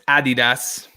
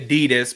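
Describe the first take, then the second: First: It is said with a non-American pronunciation. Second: It is said with the usual American pronunciation. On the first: The speaker calls it right. "but it's not. It's Adidas" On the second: The speaker calls it wrong. "I know us Americans will say Adidas"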